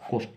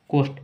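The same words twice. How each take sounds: First: Said in the usual way. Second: कोस्ट drawn out slowly as it is built letter by letter; teacher breaking कोस्ट into its sounds; slow spelled-out demo. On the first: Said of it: "S से आधा सा और T से ट". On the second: Shown as a demonstration. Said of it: "सी से क".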